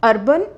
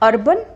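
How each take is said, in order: Both takes have the same delivery.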